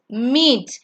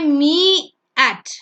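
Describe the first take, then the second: First: Only the first vowel is sounded, one syllable. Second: Both vowels are sounded as two syllables. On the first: The speaker calls it right. "You only sound the first vowel. So it's meet" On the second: The speaker calls it wrong. "we don't say me at"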